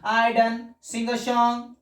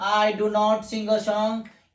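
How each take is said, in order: First: Do and not are merged into one short word. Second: Do and not are said as two full words. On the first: The speaker calls it right. "पर बोलने के लिए short में बोलो" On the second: The speaker calls it wrong. "आप ऐसे नहीं बोलना"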